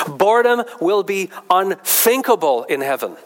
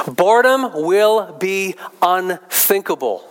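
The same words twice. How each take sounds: First: Said in the usual way. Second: "Boredom will be unthinkable" slow, each word weighted; slow emphatic repeat. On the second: Shown as a demonstration. Preacher driving a quote home, slow and emphatic.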